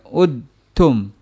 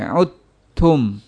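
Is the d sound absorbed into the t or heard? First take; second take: heard; absorbed. First: The d sound is pronounced separately. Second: The d sound merges fully into the t. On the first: The speaker calls it wrong. "tidak udtum" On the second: The speaker calls it right. "Dalnya hilang"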